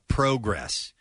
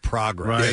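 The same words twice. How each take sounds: First: The first vowel is a long O sound. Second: The first vowel is an 'ah' sound. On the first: This is how Canadians say it. "Canadians will say progress" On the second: This is how the speaker's own region says it. "instead of progress"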